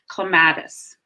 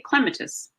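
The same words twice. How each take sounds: First: It is stressed the usual American way. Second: It is stressed the usual British way. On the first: "in the U S, we usually say clematis" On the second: "someone from England about this plant, they would say clematis"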